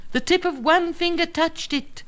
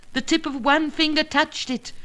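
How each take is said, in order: Both takes have the same delivery.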